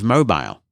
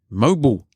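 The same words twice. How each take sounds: First: It is said the speaker's British way. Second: It is said the American way.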